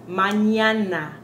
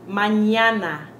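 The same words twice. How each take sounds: The two takes are said the same way.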